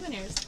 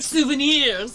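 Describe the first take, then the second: First: It is said with a plain English accent. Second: It is said with a French accent.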